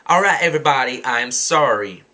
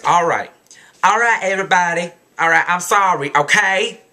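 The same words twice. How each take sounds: First: Resigned apology, falling at the end; giving-up apology. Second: Louder, grudging mock apology, pitched up; apology with attitude. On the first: Retold or imitated. Girl gives up and apologizes to everybody, resigned. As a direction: give in and apologize without the attitude. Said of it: "finally just gives up and says". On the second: Girl forced to apologize to the bus, with attitude. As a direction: throw out a sorry with attitude. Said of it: "do that without attitude".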